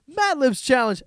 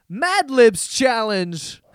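First: Laughing disbelief. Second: Slow disbelief. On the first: Repeats the title laughing. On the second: Reading the copycat video title. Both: Real, not acted.

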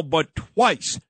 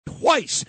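First: Said in the usual way. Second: "twice" jumps much higher, hit hard; stress on twice. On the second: Shown as a demonstration. Host stresses "twice" about Eric Adams. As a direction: land on "twice" as the outrage peak. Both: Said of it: "when not once now, but twice".

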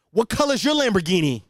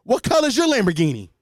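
First: Loud taunting alpha-male jab; Andrew Tate impression. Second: Loud, high taunting jab; Andrew Tate impression. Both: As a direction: sneer it like a podcast bro. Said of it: "that's just my Andrew Tate impression".

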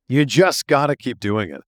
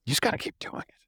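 First: Said in the usual way. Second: Whispered aside, no voice. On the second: Real, not acted. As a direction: breathe it out as a secret. Aside before repeating the point.

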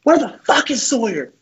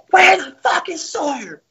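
First: High-pitched mock yell of an angry coach; put-on coach outburst; Coach Garrido. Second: Very high, drawn-out mock coach yell; imitated furious coach, slow and piercingly high; Coach Garrido. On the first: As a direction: imitate a coach calling out the culprit. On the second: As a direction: stretch it out in a strained high coach impression. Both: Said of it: "He goes".

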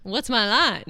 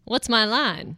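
First: Even, measured newscaster read. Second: Fluttery helpless damsel voice; damsel in distress. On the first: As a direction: read it like the evening news. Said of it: "sound like a newscaster". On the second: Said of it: "you did sound like a damsel in distress". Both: Pretend.

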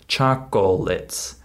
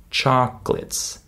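First: "chocolates" in three full syllables, "chock-oh-lets"; learners' mispronunciation. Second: "chocolates" as two-beat "chock-lits"; skipped middle syllable. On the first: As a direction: sound the middle O in "chocolates". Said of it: "That's how my students say this word". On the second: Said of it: "We skip the middle syllable". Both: Shown as a demonstration.

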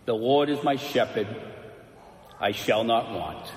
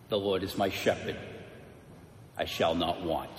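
First: Full, resonant recital; trained orator voice. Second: Put-on trembling old man. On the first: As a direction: declaim it like a polished speaker. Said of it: "this beautifully trained voice that filled the whole theater". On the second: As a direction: recite it softly, a bit shaky with age. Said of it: "in a trembling voice, and it was kind of cracked by time". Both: A narrator's reading.

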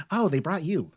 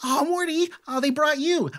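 First: Softened delight, only a little high; fond repeat after the squeal; excited, settling down. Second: High, gushing delight at seeing the dog; thrilled, pitched way up; very excited. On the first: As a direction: coo it to the dog, easing down. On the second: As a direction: squeal a greeting to a beloved dog. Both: Acted. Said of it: "she's actually very excited to see Morty".

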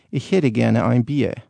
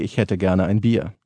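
First: Northern German accent, slow and drawn out. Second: High German. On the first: Demo for a host, in a Northern German accent. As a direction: order a beer like a Northern German. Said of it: "A Northern German would say". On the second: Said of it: "in High German it would be". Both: Shown as a demonstration.

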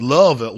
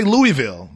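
First: Louisville run together as LUH-vil; attempted local pronunciation. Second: Louisville as three clear syllables, LOO-ee-vil; full pronunciation. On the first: Trying it the locals' way, Louisville shortened to LUH-vil. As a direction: loudly squash Louisville into "Luvvil". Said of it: "however they say it". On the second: Shown as a demonstration. Proving he can say it, Louisville as full LOO-ee-vil. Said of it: "I can say Louisville".

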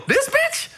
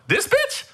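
First: High, squeaky disbelief again in a falsetto; mock-outraged high squeal; incredulous squeal. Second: High, squeaky disbelief; mock-outraged high squeal; incredulous squeal. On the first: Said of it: "I go". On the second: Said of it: "I'm on the side going". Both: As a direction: shriek it in total disbelief.

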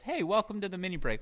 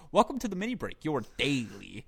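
First: Higher, innocent intro; alto pitch. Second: Imitating host intro. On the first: Retold or imitated. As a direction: sing out the greeting, pitched up. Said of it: "I also hit the alto pitch". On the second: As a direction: mimic the podcast host's opener. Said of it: "he'll just go".

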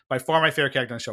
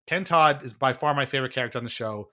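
First: Rattled off very fast; rapid tossed-off repetition; fast aside. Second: Said in the usual way. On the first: Real, not acted. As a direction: toss it off quickly as a throwaway repeat. Rushed repeat of earlier line.

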